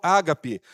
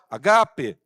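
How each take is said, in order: First: The stress is on the first syllable. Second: The stress is on the second syllable. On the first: The speaker calls it wrong. "Eu vejo muitas pessoas chamando amor ágape" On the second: The speaker calls it right. "o acento é no segundo A"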